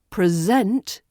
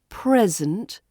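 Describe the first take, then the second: First: The stress is on the second syllable. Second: The stress is on the first syllable. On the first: It is used as a verb. "with the verb present, the stress falls on that second syllable" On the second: It is used as a noun. "The noun is present, so the stress falls on the first syllable"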